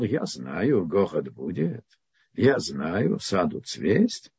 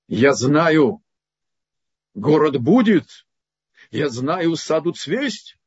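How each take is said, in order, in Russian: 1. Читается с сомневающейся, ироничной интонацией. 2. Читается с уверенной, утвердительной интонацией. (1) "И получил 10 лет за интонацию" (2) "Он прочитал стих Маяковского"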